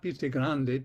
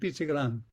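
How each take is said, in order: First: It ends with a pronounced final vowel. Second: It is said in a southern Italian way, without the final vowel.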